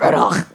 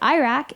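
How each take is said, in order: First: It is said with an Arabic pronunciation. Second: It is said with an American pronunciation. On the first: This is how the name is said in the home country. "instead of Iraq" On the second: The speaker learned the name from American news. "I pronounce it Iraq ... because I learned about my home country on C N N"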